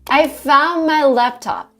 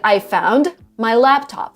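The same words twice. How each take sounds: First: The D at the end of 'found' is dropped. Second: The D at the end of 'found' is clearly pronounced. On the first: "they just make the D sound kind of disappear" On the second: "ten years ago, I would say it"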